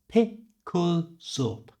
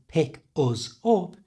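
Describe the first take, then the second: First: The K and Z sounds link into the next words. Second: Each word is said separately without linking. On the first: "it becomes pick us up" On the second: "instead of saying pick us up"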